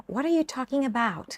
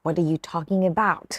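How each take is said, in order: First: High-pitched, light question; casual asking tone. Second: Challenging tone. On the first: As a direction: ask it lightly, voice lifted high. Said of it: "ต้องดูน้ำเสียงนะคะ ถ้าบอกว่า". (ถามเสียงสูงเบา ๆ แบบอยากรู้) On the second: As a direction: demonstrate a pointed, less friendly question. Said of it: "แต่ถ้าเสียง". (ถามเสียงต่ำหนักแน่นแบบไม่พอใจ) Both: Shown as a demonstration.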